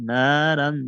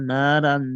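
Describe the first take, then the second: No difference in how they are said.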